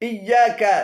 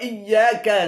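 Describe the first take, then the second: Both takes have the same delivery.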